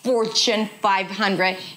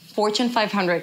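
First: The consonants are pushed out hard and forcefully. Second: The consonants are soft and lightly pronounced. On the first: The speaker calls it wrong. "Don't push every consonant" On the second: The speaker calls it right. "say these consonants softly. Don't push your voice and say it softly"

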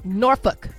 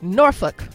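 First: It is pronounced the way locals say it. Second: It is pronounced the way locals say it.

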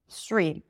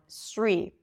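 First: It begins with a hissing S sound. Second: It begins with a hissing S sound.

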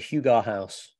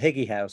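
First: Hygge is said with a Danish-style hoo-ga sound. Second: Hygge is said like the English word higgy. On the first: "Sounds a bit pretentious when you say it like that" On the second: "It just completely changed the pronunciation. Anglicized it"

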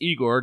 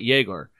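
First: The name begins with a plain vowel sound. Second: The name begins with a 'y' sound. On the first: The speaker calls it right. "It's Egor" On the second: The speaker calls it wrong. "not Yegor"

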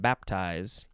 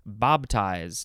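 First: The consonant before the T is a P. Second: The consonant before the T is a B. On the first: This is the general pronunciation. "not baptize" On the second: This is the Southern pronunciation. "in Southern, it's bob, baptize"

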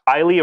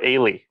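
First: The first vowel sounds like 'eye'. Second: The first vowel sounds like 'ay'. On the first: "an I sound" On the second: "an A sound"

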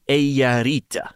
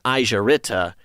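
First: The j is said like English y. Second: The j is said like English j. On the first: The speaker calls it right. "we should have been saying" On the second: The speaker calls it wrong. "we'd been saying"

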